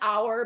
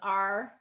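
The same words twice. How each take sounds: First: The word is said in its full form. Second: The word is said in a reduced form. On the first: "a lot of times our becomes" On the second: "in connected speech, a lot of times our becomes our"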